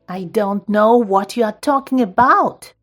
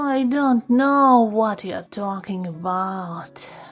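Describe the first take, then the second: First: It is said in an angry voice. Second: It is said in a tired voice. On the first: "Now try to say with angry voice" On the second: "Then tired voice"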